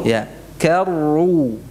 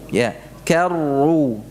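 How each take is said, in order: The two takes are said the same way.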